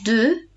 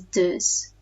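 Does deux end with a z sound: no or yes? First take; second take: no; yes. First: Deux ends in a vowel, with no z. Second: Deux ends with an added z sound.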